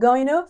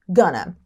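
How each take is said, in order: First: Both words are said fully and separately. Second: The words are reduced and blended into gonna. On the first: "Ao invés de going to" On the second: "ficou gonna"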